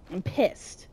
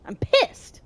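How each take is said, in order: First: Soft, low muttered complaint; low grumble. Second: Higher-pitched burst of annoyance; exasperated outburst. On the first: Player fed up with a slow game hero, low grumble. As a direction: grumble it under your breath. Grumbles, then repeats it higher. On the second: Player fed up with a slow game hero, exasperated outburst. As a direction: let it jump up in exasperation. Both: Real, not acted.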